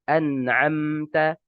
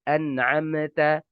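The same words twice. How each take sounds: The two takes are said the same way.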